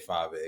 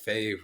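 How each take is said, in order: First: The name is said as two syllables. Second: The name is said as one syllable. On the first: The speaker calls it right. "I say Five A" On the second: The speaker calls it wrong. "that doesn't sound right to me"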